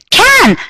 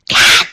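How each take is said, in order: First: The word is shouted loudly. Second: The word is whispered softly.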